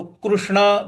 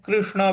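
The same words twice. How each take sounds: First: कृष्ण said as "krushna"; ru variant. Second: कृष्ण said as "krishna"; ri variant. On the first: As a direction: use a ru sound in कृष्ण. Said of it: "रू भी बोलते हैं". (कृष्ण में ऋ को "रु" बोलें) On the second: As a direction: use a ri sound in कृष्ण. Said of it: "इसको री भी बोलते हैं". (कृष्ण में ऋ को "रि" बोलें) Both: Shown as a demonstration.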